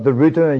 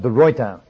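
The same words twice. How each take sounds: First: The name is said with English-style pronunciation. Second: The name is said with Dutch-style pronunciation. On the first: The speaker calls it wrong. "not de Ruyter as you folk pronounce it" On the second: The speaker calls it right. "The actual correct Dutch pronunciation is de Ruyter"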